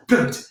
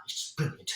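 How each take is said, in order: First: Said in the usual way. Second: Awed whisper to himself. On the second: Acted. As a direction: breathe it out in a hush. Awed aside before repeating aloud.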